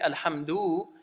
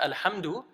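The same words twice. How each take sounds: First: The final vowel is drawn out long. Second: The final vowel is kept short. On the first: The speaker calls it wrong. "you end up adding this waw" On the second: The speaker calls it right. "shortening it to Alhamdu"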